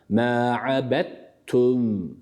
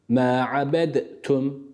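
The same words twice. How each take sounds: First: The d merges into the t sound. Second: The d is pronounced separately before the t. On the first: The speaker calls it right. "Nasıl okumuşlar?" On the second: The speaker calls it wrong. "ma'abedtum şeklinde değil"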